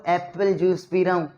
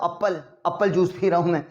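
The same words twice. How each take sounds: First: "एप्पल" with an open 'ae' first vowel; correct apple sound. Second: "एप्पल" with an 'uh' first vowel, like "uppal"; mispronounced apple. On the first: Teacher showing what students really say, "एप्पल" with 'ae'. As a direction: start "एप्पल" on a clear 'ae', as in cat. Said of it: "आप खुद बोल रहे हो". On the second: Teacher mocking the wrong vowel, "एप्पल" said as "uppal". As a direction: open "एप्पल" on a short 'uh' sound. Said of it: "एप्पल नहीं बोल रहे हो आप". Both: Shown as a demonstration.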